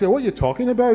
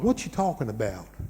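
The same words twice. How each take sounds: First: It is spoken in a Glasgow Scottish accent. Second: It has long, stretched vowels in a Southern US accent. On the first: "If you go up to Glasgow like that" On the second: "southern is like"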